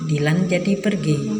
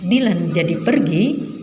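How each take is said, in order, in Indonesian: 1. Kalimat ini diucapkan dengan intonasi pernyataan. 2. Kalimat ini diucapkan dengan intonasi tanya. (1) "beda dengan" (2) "mengubah intonasi kalimat"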